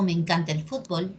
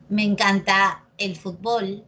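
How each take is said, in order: First: Fútbol said FÚT-bol; Me encanta el fútbol with fútbol stressed on FÚT; Peruvian stress. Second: Fútbol said fut-BOL; Me encanta el fútbol with fútbol stressed on BOL; variant stress. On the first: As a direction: say fútbol with first-syllable stress. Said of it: "preferimos decir fútbol". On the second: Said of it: "Es lo mismo". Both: Shown as a demonstration.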